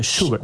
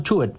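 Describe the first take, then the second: First: The name is said with a German-like pronunciation. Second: The name is said with a Chilean Spanish pronunciation. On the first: "pero tú dijiste Schubert" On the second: "Yo diría en chileno Schubert"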